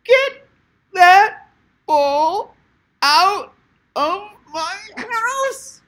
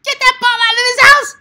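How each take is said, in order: First: Slow high shriek, word by word; outrageous voice. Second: Very high, loud screeching yell; outrageous voice. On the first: Coach demonstrating another way to yell at kids, drawn-out outrageous shriek. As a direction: stretch each word into a high screech. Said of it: "you could do it like". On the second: Coach showing a parent how to yell at kids, outrageous shriek. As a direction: screech it like an over-the-top parent. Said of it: "You could do a voice like". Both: Shown as a demonstration.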